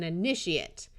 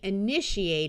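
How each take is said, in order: First: The final syllable has a schwa vowel. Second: The final syllable has a long A vowel. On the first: It is a noun: a person beginning something. "the noun form of the same word gets the schwa" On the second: It is a verb: to begin something. "the verb gets the long A sound"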